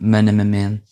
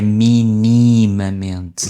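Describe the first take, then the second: First: Several vowels before the ending become 'a'-like sounds. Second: Every vowel before the ending is a clear 'i'. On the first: The speaker calls it wrong. "há aquela vontade de quem fala inglês de fazer um ma" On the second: The speaker calls it right. "São sempre i"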